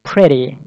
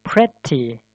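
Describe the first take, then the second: First: Pretty with the T as a fast D, like preddy; flap T. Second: Pretty with a crisp T; wrong clear T. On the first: Teacher models the flapped pretty. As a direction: flick the T in pretty into a D. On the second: Teacher shows the wrong, hard T in pretty. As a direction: say Pretty with a stiff T. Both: Shown as a demonstration.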